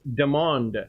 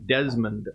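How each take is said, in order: First: The name has no s sound before the m. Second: The name has an s sound before the m. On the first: The speaker calls it right. "it's Demond Wiltshire" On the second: The speaker calls it wrong. "I've been mispronouncing one one dude's name"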